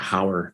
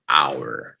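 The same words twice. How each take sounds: First: The H at the start is pronounced. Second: The H at the start is silent. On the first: The speaker calls it wrong. "I do have some students that say hour" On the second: The speaker calls it right. "The H is silent"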